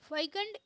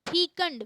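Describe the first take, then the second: First: The first vowel sounds like 'eye'. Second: The first vowel sounds like 'ee'. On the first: The speaker calls it wrong. "इसको गलत बोलते हैं" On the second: The speaker calls it right. "इसका जो सही उच्चारण है"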